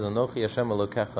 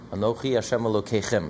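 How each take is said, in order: First: Elokecha with the singular ending -echa; singular form shown. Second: Elokeichem with the plural ending -eichem; plural form shown. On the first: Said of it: "It says". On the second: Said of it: "It doesn't say". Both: Shown as a demonstration.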